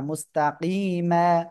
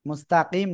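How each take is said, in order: First: The word ends on a drawn-out a vowel. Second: The word ends on a consonant, with no vowel. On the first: The speaker calls it right. "এক আলিফ টান হবে" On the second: The speaker calls it wrong. "মুস্তাকিম না"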